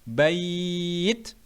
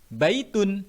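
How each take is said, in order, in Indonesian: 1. Vokal dalam kata itu dibaca panjang. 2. Vokal dalam kata itu dibaca pendek. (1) "dibaca panjang dua setengah alif" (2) "dibaca pendek"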